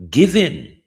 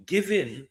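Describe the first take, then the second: First: "Given" punched out loud and high; emphatic given. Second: Said in the usual way. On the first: Real, not acted. Emphatic restart of rhetorical question.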